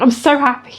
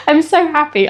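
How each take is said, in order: First: Said in the usual way. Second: A real laugh breaking into the words; laughing happily. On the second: Real, not acted. Laughing as she tells viewers she's happy. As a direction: let a happy laugh carry the line.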